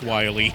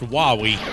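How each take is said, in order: First: The first vowel sounds like 'why'. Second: The first vowel sounds like 'wow'. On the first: The speaker calls it wrong. "it's not pronounced Wily" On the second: The speaker calls it right. "It's pronounced Wowie"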